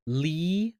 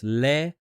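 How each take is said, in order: First: Li-o-na, syllables split, gliding O; English Leona. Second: Le-o-na with pure vowels, rising at the end; Spanish Leona. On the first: Showing a school friend's English name, syllable by syllable. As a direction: say Li-o-na with the diphthong. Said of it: "for her, it's Li-o-na". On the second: Contrasting the friend's name in Spanish, pure vowels. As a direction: say Le-o-na one sound per letter. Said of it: "whereas in Spanish". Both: Shown as a demonstration.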